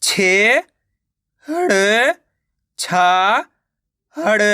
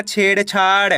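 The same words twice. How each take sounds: First: "छे, हड़, छा, हड़" one by one with pauses; teacher's broken-up "छे, हड़, छा, हड़"; sounding out syllables. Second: Said in the usual way. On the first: Shown as a demonstration. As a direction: stretch "छे" and "छा", lifting their ends. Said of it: "तो मिलके बन जाएगा छेड़छाड़". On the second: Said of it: "मिलके बन जाएगा".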